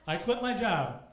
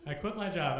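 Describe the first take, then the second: First: Loud and higher punchline; emphatic. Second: Said in the usual way. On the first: Real, not acted. Announcing the quitting to the crowd, emphatic and loud. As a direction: land the quit with force.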